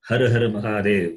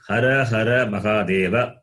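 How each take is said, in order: First: The words end on consonants, final vowels dropped. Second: Each word ends with a final vowel sound. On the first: "the last vowel are always cut" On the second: "That A is there"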